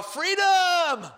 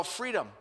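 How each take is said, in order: First: High, loud, drawn-out victory cry; triumphant yell. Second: Said in the usual way. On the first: Retold or imitated. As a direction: belt it out like an escaped prisoner. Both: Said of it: "I wanted to yell".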